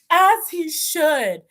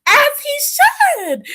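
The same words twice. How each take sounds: First: Said in the usual way. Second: High, slow, drawn-out sass; high slow diva drawl; sassy agreement. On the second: Real, not acted. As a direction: say it like a diva approving.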